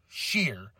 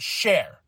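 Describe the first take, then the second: First: The vowel sounds like the one in 'ear'. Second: The vowel sounds like the one in 'air'. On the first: The speaker calls it right. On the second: The speaker calls it wrong. "Not Share"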